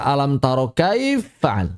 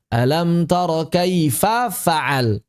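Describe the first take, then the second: First: "kaifa fa'al" merged as kaiffa'al, no a between; bacaan salah. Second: Slow "Alam tara kaifa fa'al", the final a of kaifa voiced; bacaan benar. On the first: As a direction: drop the last a of "kaifa" into a doubled f. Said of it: "Enggak dibaca". (lafalkan "kaifa fa'al" diidghamkan menjadi kaiffa'al) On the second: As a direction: keep "kaifa" and "fa'al" apart, slowly. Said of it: "Enggak dibaca alam tara kaifa fa'al". (lafalkan "kaifa fa'al" perlahan dengan harakat a) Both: Shown as a demonstration.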